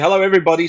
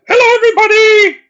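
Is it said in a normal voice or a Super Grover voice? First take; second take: normal voice; Super Grover. First: It is said in his normal voice. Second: It is said in a Super Grover voice.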